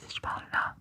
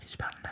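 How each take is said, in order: First: The voice is off-axis and only faintly audible. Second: The voice is further off-axis and almost inaudible. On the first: "t'entends un peu" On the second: "tu m'entends plus"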